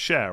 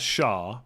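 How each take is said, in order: First: The name is said with an 'air' vowel. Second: The name is said with an 'ah' vowel. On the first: This is how the name is actually pronounced. The speaker calls it right. "I think it's pronounced Cher" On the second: This is how the spelling looks to an English reader. The speaker calls it wrong. "it looks to an ignorant English person like me as Shah"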